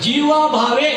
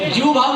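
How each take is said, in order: First: Both words end with a final vowel sound. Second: Both words end without the final vowel. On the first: The speaker calls it right. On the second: The speaker calls it wrong.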